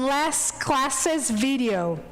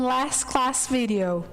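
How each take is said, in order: First: An extra 'iz' syllable is added after 'class'. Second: No extra syllable is added after 'class'. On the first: "They do add an E S when they read it" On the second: "there is no pronunciation, no change in pronunciation"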